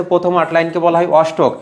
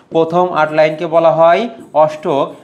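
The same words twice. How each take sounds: First: Said in the usual way. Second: Slower, each word spaced out for dictation; slow repeat. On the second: Shown as a demonstration. Teacher repeating the octave definition for students, slow and spaced. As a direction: repeat it slowly so students can note it.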